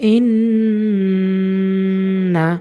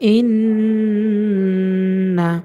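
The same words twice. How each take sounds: No difference in how they are said.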